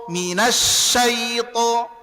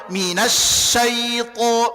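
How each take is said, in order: Both takes have the same delivery.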